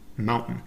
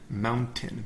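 First: The t in the middle is swallowed. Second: The t in the middle is clearly pronounced.

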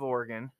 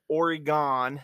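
First: It is pronounced the way locals say it. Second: It is pronounced the way outsiders say it. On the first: The speaker is from the place. The speaker calls it right. "instead of Oregon" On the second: The speaker is not from the place. The speaker calls it wrong. "somebody who pronounces it Oregon"

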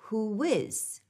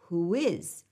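First: A W glide links the two words. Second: The same.

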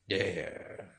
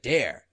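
First: The word is said coolly, as if indifferent. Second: The word is said eagerly, with obvious interest. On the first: The speaker does not care what happens. The speaker calls it right. "Like this" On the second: The speaker is keen to be dared. The speaker calls it wrong. "no. Not like that, son"

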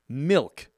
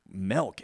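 First: The vowel sounds like 'ih', as in milk. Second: The vowel sounds like 'eh', as in melk. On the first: The speaker calls it right. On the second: The speaker calls it wrong.

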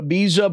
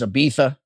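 First: The middle consonant is a z sound. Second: The middle consonant is a th sound. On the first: The speaker calls it wrong. "I always called it Ibiza" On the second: The speaker calls it right. "apparently the proper pronunciation is Ibiza. I don't know how a Z into a TH"

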